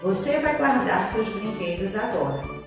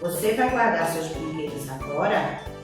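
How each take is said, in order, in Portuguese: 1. É dita como uma afirmação simples e neutra. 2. É dita como uma pergunta, com entonação ascendente. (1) "O pai afirma que a filha vai guardar os brinquedos... é a frase A" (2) "isso é uma pergunta. Então, é a frase B"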